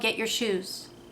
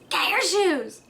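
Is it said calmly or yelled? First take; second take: calmly; yelled. First: It is said calmly and nicely. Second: It is yelled in a raised voice.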